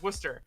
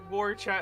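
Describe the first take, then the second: First: The name is said shortened, like Wooster. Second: The name is said with fuller, misplaced syllables. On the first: The speaker calls it right. "it's Worcester" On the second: The speaker calls it wrong. "I may have called it Warchat"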